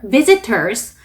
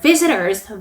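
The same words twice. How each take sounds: First: The t sound is clearly pronounced. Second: The t sound is dropped. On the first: "이렇게 T 발음을 살려서 발음하셔도 괜찮아요" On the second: "이렇게 T 발음 먹으셔도 되고"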